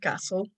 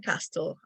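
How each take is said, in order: First: The t sound is silent in the middle. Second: The t sound is pronounced in the middle. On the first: The speaker calls it right. "I said castle" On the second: The speaker calls it wrong. "So I don't say castle"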